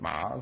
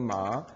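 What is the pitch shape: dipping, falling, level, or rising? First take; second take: dipping; rising. First: The pitch dips low, then rises again. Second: The pitch rises from mid to high. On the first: "삼성은 마" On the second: "이성은 마"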